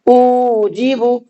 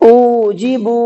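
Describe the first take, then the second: First: The first syllable u is drawn out. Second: The last syllable bu is drawn out. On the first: "हमजा खिंच गया, गलत" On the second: "बा खिंच गया, ये भी गलत"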